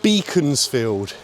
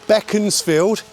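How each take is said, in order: First: It is said the way outsiders say it. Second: It is said the way locals say it. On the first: The speaker calls it wrong. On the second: The speaker calls it right.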